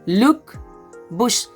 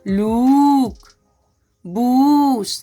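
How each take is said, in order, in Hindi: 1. दोनों शब्दों में स्वर छोटा है। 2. दोनों शब्दों में स्वर लंबा है। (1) "यहाँ पे इसको बोलेंगे लुक बुश" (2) "ऐसे नहीं पढ़ेंगे"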